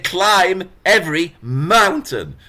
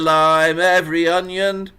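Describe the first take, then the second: First: The consonants are hard and exaggerated. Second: The consonants are soft and barely heard. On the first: The speaker calls it right. "I want to hear k. I want to hear v. I want to hear m in mountain" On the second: The speaker calls it wrong. "I don't want to hear lime every onion"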